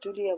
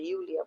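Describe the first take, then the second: First: The name begins with a J sound. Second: The name begins with a Y sound. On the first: The speaker calls it wrong. "আমরা জুলিয়া বলবো না" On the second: The speaker calls it right. "আমরা ইউলিয়া বলবো"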